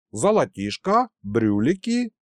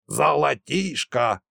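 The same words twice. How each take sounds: First: Eager question. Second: Slow, scornful Золотишко; scornful snort. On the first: Mikhalych asks the prisoner about gold, eager rising question. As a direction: ask Золотишко with keen rising interest. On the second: Nikolasha dismisses the old man's greed, slow scornful snort. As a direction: scoff Золотишко as worthless. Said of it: "фыркнул Николаша". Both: A narrator's reading.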